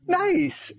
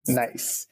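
First: It sounds warm and enthusiastic. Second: It sounds flat and dismissive.

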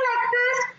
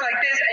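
First: The voice is high and sweet. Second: The voice is lower and stronger. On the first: The speaker sounds timid and not taken seriously. The speaker calls it wrong. "she went from speaking like this" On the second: The speaker sounds confident and authoritative. The speaker calls it right. "to having a voice like this"

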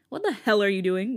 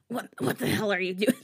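First: The voice is plain and unforced. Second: The voice is pushed to sound raspy.

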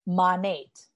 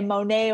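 First: The word ends with a clear T sound. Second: The word ends without any T sound. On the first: The speaker calls it right. "So I say Monate, modern nature" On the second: The speaker calls it wrong. "with a silent T like it's French"

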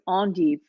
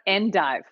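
First: The word is pronounced in a fancy way. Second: The word is pronounced in an ordinary way. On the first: The speaker is being pretentious. "depending on if you're being pretentious like I am" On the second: The speaker is being a normal person. "or if you're just going to be a normal person"

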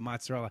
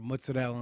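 First: It is said in a standard American way. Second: It is said in an Italian-American way. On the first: "instead of mozzarella" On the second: "say it like an Italian"

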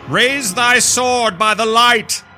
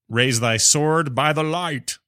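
First: It is read in a dramatic, put-on voice. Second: It is read in a plain, ordinary voice.

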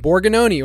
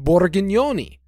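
First: The name is said without an Italian accent. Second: The name is said in a thick Italian accent.

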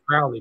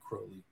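First: The name does not rhyme with holy. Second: The name rhymes with holy. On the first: The speaker calls it wrong. "I used to say Crowley" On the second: The speaker calls it right. "he rhymes his last name with holy. So I say Crowley"

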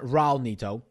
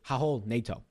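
First: The R at the start is clearly pronounced. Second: The R at the start is silent. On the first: The speaker calls it wrong. "It's not Raul Neto" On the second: The speaker calls it right. "It is Raul Neto. Raul Neto is a silent R"

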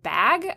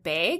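First: The word is said with a neutral accent. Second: The word is said with a regional accent. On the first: This is how it is said in the new city. The speaker calls it right. "instead of bag" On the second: This is how it is said back home. The speaker calls it wrong. "I said the word bag instead of bag"

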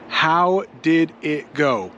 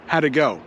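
First: It is said slowly, with every word full. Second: It is said quickly, with words run together.

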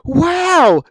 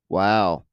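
First: It sounds thrilled and excited. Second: It sounds flat and disappointed.

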